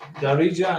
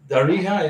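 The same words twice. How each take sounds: First: The j sounds like the j in jaybird. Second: The j is a rough, throaty h-like sound. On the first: The speaker calls it right. "Darija in in English" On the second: The speaker calls it wrong. "Darija in Spanish"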